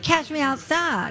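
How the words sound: The phrase is said in a slurred, unclear accent. This imitates how someone else said it. "her mother would have to translate. Because nobody knew what she was saying"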